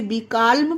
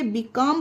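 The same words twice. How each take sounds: First: "बीकाल्म" with the L voiced before M; "बीकाल्म", L clearly heard before the final M; sounded L. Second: "बीकॉम" with no L sound before the M; "बीकॉम", ending straight in M; silent L. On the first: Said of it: "तो ये गलत हो जाएगा". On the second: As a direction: say "बीकॉम", dropping the L entirely. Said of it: "ध्वनि नहीं हो रही है". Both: Shown as a demonstration.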